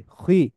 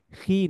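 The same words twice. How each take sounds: First: খি with a thick, back 'kh', gliding like 'khui'; heavy khi. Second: খি light, with a plain front 'ee'; wrong thin khi. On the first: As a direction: say খি full-mouthed from the throat. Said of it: "মোটা করে উচ্চারণ করতেছি". (মোটা করে খি) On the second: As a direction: say খি thin, without the back glide. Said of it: "খি না". (পাতলা করে ভুল খি) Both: Shown as a demonstration.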